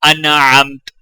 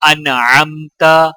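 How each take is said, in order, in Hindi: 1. शब्द हल्की t की आवाज़ पर खत्म होता है। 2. शब्द एक छोटे स्वर पर खत्म होता है।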